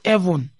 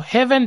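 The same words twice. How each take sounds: First: The word starts without any h sound. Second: The word starts with a clear h sound.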